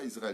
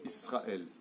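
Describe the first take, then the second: First: The middle consonant is a voiced z sound. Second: The middle consonant is a voiceless s sound. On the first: This is the French way of saying it. The speaker calls it wrong. "on ne dit pas Israël, c'est pas avec un zaïn" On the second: This is the Hebrew way of saying it. The speaker calls it right. "on dit Israël"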